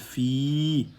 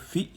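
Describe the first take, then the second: First: The vowel is long. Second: The vowel is short. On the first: The speaker calls it right. "on a fait la liaison avec l'allongement" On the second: The speaker calls it wrong. "au lieu de dire fi"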